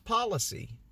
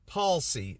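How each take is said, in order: First: The word is said with three syllables. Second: The word is said with two syllables. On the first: The speaker calls it wrong. "I thought it was policy" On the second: The speaker calls it right.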